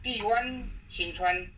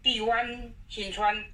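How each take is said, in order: Both takes have the same delivery.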